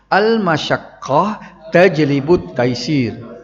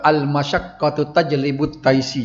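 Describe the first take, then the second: First: The first word ends in a stopped -h. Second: The first word ends in -tu, joined on. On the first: The speaker calls it right. "Kita wakaf tengok" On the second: The speaker calls it wrong. "tak usah sambung gitu, tak usah kata"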